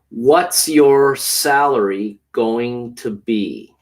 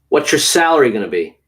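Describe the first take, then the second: First: The sentence is said slowly and carefully. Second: The sentence is said quickly, with gonna. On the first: "once slowly" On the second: "then once quickly in conversation"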